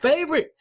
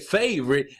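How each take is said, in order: First: It is said with exaggerated, very high excitement. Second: It is said with a slightly raised, mildly excited voice. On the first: The speaker calls it wrong. "overly excited like favorite" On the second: The speaker calls it right. "raising your voice just a little bit"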